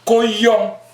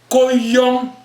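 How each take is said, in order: First: The phrase is said short, without stretching. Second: The phrase is stretched out a little longer. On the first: It means a single monkey. "ton singe" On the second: It means several monkeys. "je tire un peu. Ça veut dire que tes singes"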